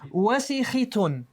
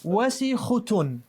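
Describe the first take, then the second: First: The vowel before the ending is i. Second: The vowel before the ending is u. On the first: "Let's try it with a kasra on this word" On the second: "change this from a, fat, uh, a fatha to a dhamma"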